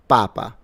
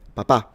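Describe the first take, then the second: First: The stress is on the first syllable. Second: The stress is on the last syllable. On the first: It means the Pope. "So the stress is on the first syllable" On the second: It means dad. "So the stress is at the end"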